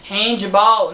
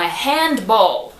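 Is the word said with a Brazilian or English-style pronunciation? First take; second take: Brazilian; English-style. First: The word is said with Brazilian sounds. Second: The word is said with English sounds. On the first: The speaker calls it wrong. "não" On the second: The speaker calls it right. "é"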